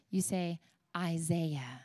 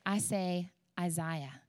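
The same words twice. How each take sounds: First: Isaiah said eye-ZAY-uh, slow and soft; American pronunciation. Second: Isaiah said eye-ZYE-uh, slow and soft; her pronunciation. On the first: Teasing the congregation about their way, slow eye-ZAY-uh. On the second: Teasing the congregation about her own way, slow eye-ZYE-uh. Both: Shown as a demonstration.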